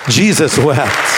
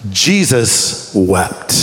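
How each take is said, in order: First: "Jesus wept" slow but connected; low, deliberate "Jesus wept"; firm, weighted repeat. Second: "Jesus wept" very slow and low; grave, low, long pause inside "Jesus wept"; dramatic, weighted answer. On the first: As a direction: state "Jesus wept" as one firm, measured phrase. Repeats the answer more firmly. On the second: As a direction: stretch "Jesus wept" out, word by word. Two-word answer given with dramatic weight. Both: Shown as a demonstration.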